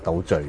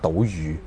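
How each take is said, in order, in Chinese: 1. 第二个音节的发音像'zeoi'。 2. 第二个音节的发音像'jyu'。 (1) "人哋即係糾正我話係叫倒敘" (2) "我講倒魚"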